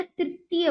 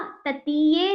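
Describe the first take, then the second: First: तृतीय as tri-tee-ya; तृतीय with r in the first syllable; correct pronunciation. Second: ततीय as ta-tee-ya, no r sound; ततीय missing its ri vowel; wrong pronunciation. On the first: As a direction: sound the ri after t in तृतीय. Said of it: "होता है". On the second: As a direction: say ततीय with plain 'ta' first. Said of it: "नहीं होता". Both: Shown as a demonstration.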